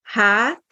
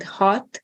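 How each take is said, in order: First: Hát with an open, lengthened vowel; long á. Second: Hot with a short, rounded vowel. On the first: Teacher explains word for back, long á. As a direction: draw out the á in Hát. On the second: Teacher explains word for six, short a. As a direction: say hot briefly, Hungarian short a. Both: Shown as a demonstration. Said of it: "Another example of a pair".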